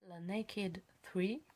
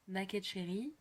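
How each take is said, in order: First: Slow, halting English accent on "Naked three"; poor English accent. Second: "Naked" said the French way, "na-kèd"; French-style pronunciation. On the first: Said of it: "mon accent anglais est pitoyable". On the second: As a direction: say "Naked Cherry" softly with French vowels. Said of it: "On va rester à la française". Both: Real, not acted.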